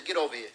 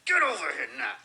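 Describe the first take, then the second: First: Said in the usual way. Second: Higher, hammed-up scolding command; mock-angry, forceful order to a child; intensified mad mother. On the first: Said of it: "She intensifies it". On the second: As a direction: imitate an old-school mother who means it now. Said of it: "She intensifies her expression".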